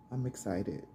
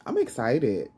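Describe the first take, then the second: First: Softer, inward repeat; quiet. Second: Louder burst of excitement; excited. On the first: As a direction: say it again softly to yourself. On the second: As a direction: blurt it out eagerly. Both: Real, not acted.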